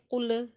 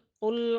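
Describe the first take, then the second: First: The final sound bounces with an echo. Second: The final sound ends still without bouncing. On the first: The speaker calls it wrong. "jangan dipantulkan menjadi qul" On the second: The speaker calls it right. "tapi fadzuqul qul"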